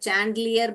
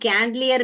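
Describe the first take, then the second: First: The word begins with a ch sound. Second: The word begins with a k sound. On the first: "बहुत लोग इस च को डाल देते हैं" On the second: "ये कैंडलियर भी नहीं है"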